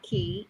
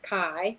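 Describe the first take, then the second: First: The name has the vowel of 'see'. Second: The name has the vowel of 'sky'. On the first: The speaker calls it wrong. "a lot of people say Key. It's not Key" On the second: The speaker calls it right. "it's Kai"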